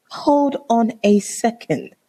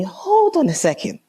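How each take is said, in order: First: Drawn-out, high, deliberate disbelief; slow indignant repeat. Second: High, quick, indignant halt; indignant interruption. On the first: Woman confronting boyfriend about his ex, slow and indignant. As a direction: spell it out slowly, word by word. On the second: Woman to boyfriend on hearing of his ex, indignant. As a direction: stop him short, pitched right up. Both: Retold or imitated. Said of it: "This is me".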